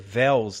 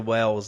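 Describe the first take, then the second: First: The name begins with a v sound. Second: The name begins with a w sound. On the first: "Tem que ser Vels, né? Porque o W é som de V" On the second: "se for alemão, daí não pode ser Wells"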